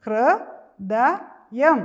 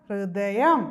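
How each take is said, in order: First: ഹൃദയം drawn out very slowly and loud; teacher spells out ഹൃദയം slowly for the class; slow sounding out. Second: Said in the usual way. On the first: Shown as a demonstration. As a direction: stretch every syllable of ഹൃദയം. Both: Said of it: "ഒരു പ്രാവശ്യം കൂടെ പറഞ്ഞേ".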